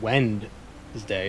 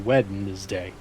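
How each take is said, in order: First: The first d is silent. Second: The first d is pronounced. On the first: The speaker calls it wrong. "We're not supposed to pronounce it Wednesday" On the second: The speaker calls it right. "It's supposed to be Wednesday. Weden"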